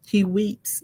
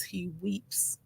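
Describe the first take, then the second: First: Said in the usual way. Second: Soft, breathy, near-silent tearful words; hushed weeping. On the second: A narrator's reading. Telling how Joseph finally received his brothers' apology, hushed and tearful. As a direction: let the words almost vanish into tears.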